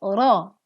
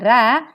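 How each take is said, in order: First: The r is heavy, with the tongue root raised. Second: The r is light and thin, not raised. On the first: The speaker calls it right. "tetapi ro. Pangkal lidah mengangkat" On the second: The speaker calls it wrong. "bukan dibaca ra"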